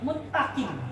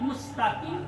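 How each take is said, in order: First: The s is dropped and the t is doubled. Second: An s sound comes before the t. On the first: The speaker calls it wrong. "sinnya hilang" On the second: The speaker calls it right. "Mengucapkan kalimat mustaqim"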